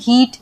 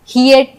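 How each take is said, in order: First: The vowel is a single long ee. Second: The vowel glides from ee to uh. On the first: The speaker calls it right. "जैसे हम हीट ... ऐसे पढ़ेंगे" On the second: The speaker calls it wrong. "हियट नहीं पढ़ते"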